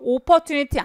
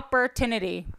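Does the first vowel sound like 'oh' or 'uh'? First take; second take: oh; uh. First: The first vowel is a rounded 'oh' sound. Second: The first vowel is a relaxed 'uh' sound. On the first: The speaker calls it wrong. "안 돼요. 오 발음은 영어에 없어요" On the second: The speaker calls it right. "그래서 opportunity 어라고 발음하시면 돼요"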